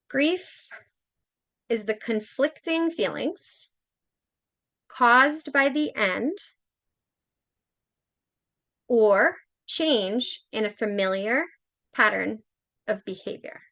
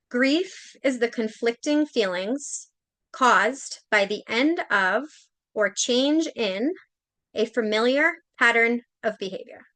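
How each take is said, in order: First: It is read a little more slowly. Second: It is read at a normal pace.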